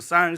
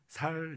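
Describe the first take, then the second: First: The first consonant is a tense ss sound. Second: The first consonant is a plain s sound. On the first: The speaker is from Busan. The speaker calls it right. "부산 사람들은 쌀 발음이 잘 됩니다" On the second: The speaker is from Daegu. The speaker calls it wrong. "대구 사람들은 살, 살 이래요. 그러니까 된 발음이 잘 안 돼요"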